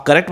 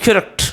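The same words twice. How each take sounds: First: करेक्ट with a full "ka-rekt"; usual mispronunciation. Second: करेक्ट with reduced first vowel, "kurekt"; right pronunciation. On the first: Teacher quoting students' habit, mispronounced. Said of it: "जो आप करेक्ट बोलते हैं". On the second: Teacher giving students the right form, correctly pronounced. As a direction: squeeze करेक्ट into "k'rekt". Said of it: "इसका right pronunciation है". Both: Shown as a demonstration.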